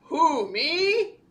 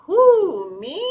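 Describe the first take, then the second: First: Attempted deep storybook dragon; mock-deep character voice. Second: Said in the usual way. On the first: A narrator's reading. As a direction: redo it as a big deep-voiced creature. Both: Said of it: "let me do that in a deep voice".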